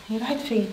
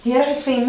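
First: Hushed question. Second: Said again, clearer and louder; repeated louder. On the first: Wife's sister asks Emad quietly where her sister went. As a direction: keep it quiet so no one overhears. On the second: Repeating the question to Emad after he says what. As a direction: make sure he hears it this time. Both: Acted. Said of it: "ايه؟".

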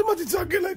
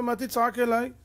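First: High-pitched, indignant repeat of the question; incredulous echo. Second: Said in the usual way. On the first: Acted. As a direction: throw it back in disbelief. (חזרה נדהמת בקול גבוה)

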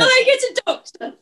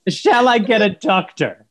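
First: High prim mock lady; prim English lady. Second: Slow mocking echo; mocking imitation. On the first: Mum repeats her line as a fussy old-fashioned English lady. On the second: Son slowly echoes mum's line to tease her. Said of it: "The eighteen twenties?".

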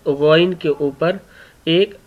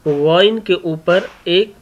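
The two takes are said the same way.

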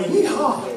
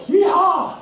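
First: High but half-hearted cowboy cheer; a deflated yeehaw on a sinking horse; weaker yeehaw. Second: High, loud joyful yeehaw; mock cowboy yeehaw. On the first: Retold or imitated. Rider on the sway-backed horse, half-hearted high yeehaw. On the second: Rider cheering as he mounts the horse, high loud whoop.

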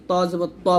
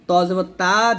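First: ত with a thick T and rounded vowel; heavy Twa. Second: তা with a thin T and open A; Twa as Ta. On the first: Teacher giving pupils the right letter, T heavy. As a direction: fill out the final ত, rounded. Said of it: "বলতে হবে". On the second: Teacher showing pupils what to avoid, T thin. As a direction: lighten the final তা to a plain Ta. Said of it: "যেন না হয়ে যায়". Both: Shown as a demonstration.

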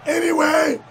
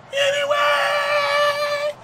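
First: Said in the usual way. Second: Drawn-out high cracking Anyway. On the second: Shown as a demonstration. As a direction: stretch Anyway very slowly and high, voice breaking.

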